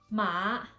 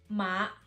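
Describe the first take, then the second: No difference in how they are said.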